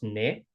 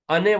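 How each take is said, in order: First: The word is said in a shortened form. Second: The word is said in its full form. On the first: This is how it is said in everyday speech. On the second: This is the written or formal form.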